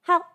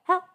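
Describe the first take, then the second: The two takes are said the same way.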